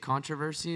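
It is said in an American accent.

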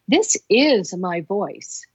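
The word 'is' carries the stress.

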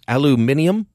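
It is said the British way, with five syllables. "they almost say it like the Brits"

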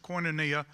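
The word is said in a Southern American way. "which is the way you pronounce that in the South"

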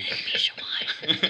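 It is whispered into the microphone.

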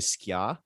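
It is said with a Jamaican pronunciation.

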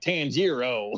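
The name is said in a Texan-like way. The speaker calls it wrong. "I've been saying it like a Texan"

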